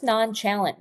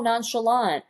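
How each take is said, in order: First: "nonchalant" as non-CHAL-ant, with a hard ch; "nonchalant" misread as it is spelt, rhyming with "gallant"; mispronounced word. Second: "nonchalant" as non-shuh-LAHNT; realizing, "nonchalant" with sh and a final LAHNT; correct pronunciation. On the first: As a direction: say "nonchalant" like a kid sounding it out: non-CHAL-unt. Child's misreading, later corrected. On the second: Mother gives the correct word. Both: Retold or imitated.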